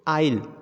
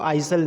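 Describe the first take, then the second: First: No s sound is heard after the first vowel. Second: An s sound is heard after the first vowel. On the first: The speaker calls it right. "The exact pronunciation" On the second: The speaker calls it wrong. "आइसल नहीं पढ़ा जाएगा"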